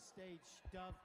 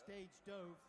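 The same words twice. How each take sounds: First: The word dove rhymes with love. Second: The word dove rhymes with stove. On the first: It is a bird. The speaker calls it right. "It's actually stage dove. Yanis has a special stage dove" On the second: It is the past tense of dive. The speaker calls it wrong. "you might think it's uh, stage dove. Incorrect"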